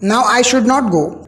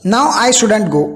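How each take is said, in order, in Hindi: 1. Should और not दो पूरे शब्दों की तरह बोले जाते हैं। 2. Should और not एक छोटे शब्द में मिल जाते हैं।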